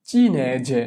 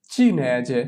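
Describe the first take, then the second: No difference in how they are said.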